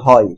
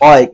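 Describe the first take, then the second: First: The word starts with a clear h sound. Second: The word starts with a bare vowel, no h. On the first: The speaker calls it right. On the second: The speaker calls it wrong.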